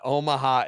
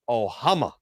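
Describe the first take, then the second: First: The word is said in the usual way, Omaha. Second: The middle sounds are swapped, giving Ohama. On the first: The speaker calls it right. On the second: The speaker calls it wrong.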